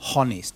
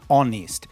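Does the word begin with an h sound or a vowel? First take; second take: h sound; vowel. First: The word starts with an audible h sound. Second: The word starts with a vowel sound, no h. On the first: The speaker calls it wrong. "not honest" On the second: The speaker calls it right. "It begins with an O"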